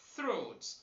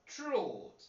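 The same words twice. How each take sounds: First: The th is a voiceless dental fricative. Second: The th is not a voiceless fricative. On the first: The speaker calls it right. "You should say" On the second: The speaker calls it wrong. "Do not say"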